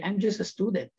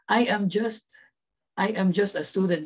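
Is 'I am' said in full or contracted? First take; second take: contracted; full. First: The words 'I am' are contracted to 'I'm'. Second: The words 'I am' are said in full. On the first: This sounds casual. The speaker calls it right. "start using a lot of contractions" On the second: This sounds formal. The speaker calls it wrong. "Instead of saying"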